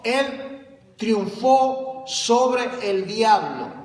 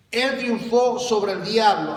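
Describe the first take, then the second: First: Triunfó stretched and stressed, slow and weighty; emphatic slow repeat. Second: Said in the usual way. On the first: Real, not acted. Preacher driving home triunfó to the congregation, slow emphasis. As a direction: lean hard on triunfó, drag it out.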